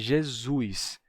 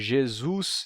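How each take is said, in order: First: The final vowel glides into an i before s. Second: The final vowel is a plain u before s. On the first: This is the form in the speaker's own accent. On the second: This is the form without the accent feature.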